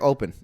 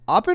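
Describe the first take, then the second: First: The first syllable has a long 'ope' vowel. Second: The first syllable has a short 'op' vowel. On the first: This is how the speaker habitually says it. "I'm keep saying open" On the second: This is how the film says the name. "they said Oppen"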